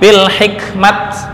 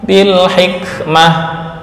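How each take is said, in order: First: The word ends with a clipped t sound. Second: The word ends with a soft h sound. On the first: The speaker calls it wrong. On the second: The speaker calls it right. "mengganti tak dengan ha"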